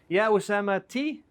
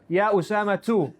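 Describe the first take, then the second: First: The name ends in a plain i vowel. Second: The name ends in a plain u vowel. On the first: The speaker calls it wrong. "I can never say Usama T with a kesra" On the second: The speaker calls it right. "So the correct answer is Ya Usama two"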